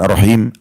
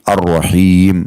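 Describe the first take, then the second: First: The vowel in the last syllable is short. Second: The vowel in the last syllable is lengthened. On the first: The speaker calls it wrong. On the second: The speaker calls it right. "Maka dibaca sedikit agak panjang"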